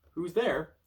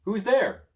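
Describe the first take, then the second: First: Said in the usual way. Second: High, loud call into the dark. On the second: Acted. Child calling to the unseen sneezer, loud and high. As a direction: shout it nervously into the dark.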